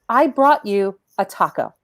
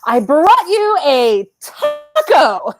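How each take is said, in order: First: It is said in a focused, pointed way. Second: It is said freely, in a liberated way.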